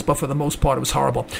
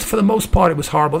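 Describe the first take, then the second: First: Quieter, lower repeat. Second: Said in the usual way. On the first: Real, not acted. Host repeating his verdict on the debate, softer and lower.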